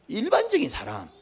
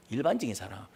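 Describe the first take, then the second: First: Phrase raised high then dropped; 일반적인 사람 pitched much higher; high first take. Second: Much lower and softer repeat; 일반적인 사람 dropped low and soft; 일반적인 said low under the breath; low quiet take. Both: Shown as a demonstration. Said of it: "repeats phrase in two voices".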